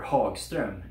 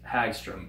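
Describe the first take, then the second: First: The name is said in its native way. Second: The name is said in an anglicized way. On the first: The speaker calls it right. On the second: The speaker calls it wrong.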